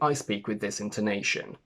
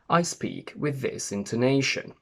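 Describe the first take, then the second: First: The pitch moves up and down only slightly. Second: The pitch swings widely up and down. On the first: This is a friendlier, more neutral accent. "make it a little bit friendlier ... less marked" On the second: This is the speaker's natural regional accent. "In my natural accent, my intonation is very marked. I go up and down a lot"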